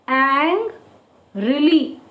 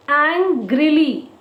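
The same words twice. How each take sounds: First: "Ang, really" in two separate beats with a clear gap; broken into syllables. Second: Said in the usual way. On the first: Shown as a demonstration. Teacher breaking a word in two for children, "Ang... really" syllable by syllable. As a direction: split "Ang" from "really", each stressed evenly. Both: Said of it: "Break this word into two".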